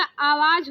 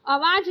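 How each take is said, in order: First: आवाज with a long opening aa; correct long first vowel. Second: आवाज with a short first a; wrong short first vowel. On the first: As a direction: say आवाज slowly as "aa-vaaj". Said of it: "आवाज होता है". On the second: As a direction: say आवाज as "uh-vaaj". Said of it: "आवाज नहीं होता". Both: Shown as a demonstration.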